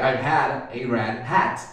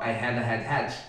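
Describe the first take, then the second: First: The R sounds like an English R. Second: The R sounds like Portuguese H.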